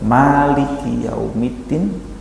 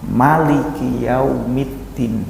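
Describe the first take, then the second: First: The first vowel of Maliki is long. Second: The first vowel of Maliki is short. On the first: "Maliki dengan huruf manya panjang" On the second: "mimnya pendek"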